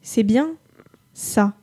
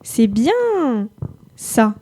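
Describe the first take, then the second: First: Bien is said plainly, without special stress. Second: Bien is stressed and stretched out.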